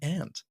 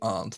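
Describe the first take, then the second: First: It is said with an American accent. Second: It is said with a British accent.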